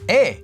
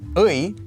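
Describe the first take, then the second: First: The marker is pronounced as 'e'. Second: The marker is pronounced as 'ui'. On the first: "can be also pronounced as 에" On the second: "the possessive marker 의"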